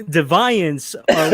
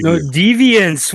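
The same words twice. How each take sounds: First: "deviance" drawn out slowly, dih-VY-ence; careful pronunciation. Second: "deviance" said slowly and deliberately, DEE-vee-ence; careful pronunciation. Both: Shown as a demonstration. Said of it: "two different pronunciations of the same letters".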